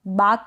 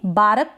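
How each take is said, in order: First: बाक in one syllable without R; बाक with a long vowel straight into K; silent R. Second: बारक as two syllables, baa-ruk; बारक with an overdone, voweled R; wrong full R. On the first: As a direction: drop the R in बाक. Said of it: "बारक कर देंगे". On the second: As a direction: sound the R fully in बारक. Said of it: "र को भी आप बिल्कुल full pronounce करेंगे". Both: Shown as a demonstration.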